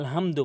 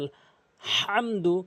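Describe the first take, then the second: First: The h is light and breathy. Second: The h is harsh, from mid-throat. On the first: The speaker calls it wrong. "অর্থ চেঞ্জ হয়ে যায়" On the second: The speaker calls it right. "এখানে হা হলকের মাঝখান থেকে বলতে হবে"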